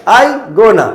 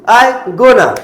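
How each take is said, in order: No difference in how they are said.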